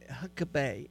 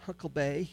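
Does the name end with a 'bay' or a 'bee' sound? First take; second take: bay; bay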